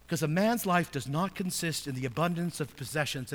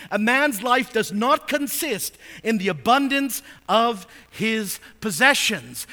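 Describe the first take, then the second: First: Said in the usual way. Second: Verse proclaimed loud and high, slowing at the end; full-force preaching. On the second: Acted. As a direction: thunder the warning from the pulpit.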